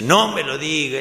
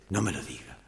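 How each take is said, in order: First: Loud acted plea from within; exasperated protest. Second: Low, hushed plea from within; voice from inside. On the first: Hidden man interrupting woman's confession, loud exasperated plea. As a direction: burst out, begging not to hear it. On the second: Acted. Hidden man to woman confessing, low muffled plea. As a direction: beg quietly not to be told. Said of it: "una voz de adentro".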